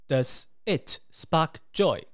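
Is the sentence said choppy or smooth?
choppy. The words sound choppy and separate.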